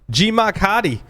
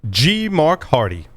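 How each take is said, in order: First: It is said in a Rhode Island accent. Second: It is said in a standard accent.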